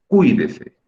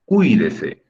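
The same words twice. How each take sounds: First: "Cuídese" with the í said louder and clearer; stressed I. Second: "Cuídese" with the I as the strong syllable, ui run together; stress on the I. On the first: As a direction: push the í of "Cuídese" a little louder. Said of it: "Es la I la que estoy pronunciando más fuerte". ("Cuídese" marcando fuerte la í) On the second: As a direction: lean on the í of "Cuídese", calm teacher demo. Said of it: "¿cuál es la sílaba de esas dos que estoy pronunciando más fuerte?". ("Cuídese" con el acento en la í) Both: Shown as a demonstration.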